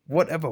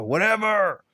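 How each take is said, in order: First: Resigned. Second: Higher, exasperated dismissal. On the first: Reviewer giving up on the film's nonsense, resigned. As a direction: give up with a sigh. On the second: Reviewer fed up with the film's nonsense, exasperated. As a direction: throw it away in exasperation. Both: Real, not acted.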